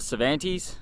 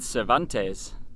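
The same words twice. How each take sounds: First: The name is said in the local pronunciation. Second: The name is said in a non-local pronunciation.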